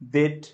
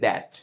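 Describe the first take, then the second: First: The vowel sounds like the e in bed. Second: The vowel sounds like the a in cat. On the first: The speaker calls it wrong. "It's not দেট" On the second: The speaker calls it right. "It's দ্যাট"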